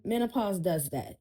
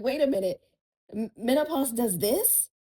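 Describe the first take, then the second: First: Said in the usual way. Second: Higher and louder, disbelieving; incredulous retold question. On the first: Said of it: "Yeah, m". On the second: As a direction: ask it like the news just hit you. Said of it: "And I'm like".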